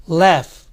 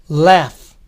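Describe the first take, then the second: No difference in how they are said.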